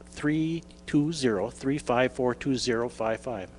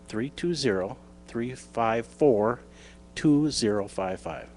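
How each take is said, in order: First: The number is read at normal speed. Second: The number is read more slowly.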